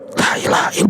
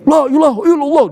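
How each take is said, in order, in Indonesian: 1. Diucapkan dengan pelan dan tenang. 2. Diucapkan dengan keras dan penuh semangat. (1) "dia tetap la ilaha illallah begitu" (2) "Dia praktekkan zikir jahar"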